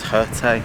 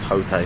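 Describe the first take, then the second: First: The vowel sounds like the vowel in pho. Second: The vowel does not sound like pho's vowel. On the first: "If it's like the Pho way of saying it" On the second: "but if not"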